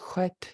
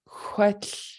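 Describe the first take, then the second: First: The word stops cleanly at the final T. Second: The word ends with a breathy voiceless L. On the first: "if there was no L, if it just was huet, you know, you hear that the word end at the T" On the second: "we actually continue to breathe out that friction um, with the voiceless L"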